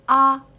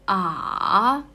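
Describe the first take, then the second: First: The pitch stays high and level. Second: The pitch dips low and then rises. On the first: "You don't need to put any emotions" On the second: "from the lower up and then it's going down and then up again"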